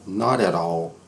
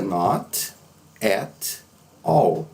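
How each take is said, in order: First: The words run together into one linked phrase. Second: Each word is said separately and carefully. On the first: The speaker calls it right. "As pessoas vão dizer assim" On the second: The speaker calls it wrong. "ninguém fala desta forma"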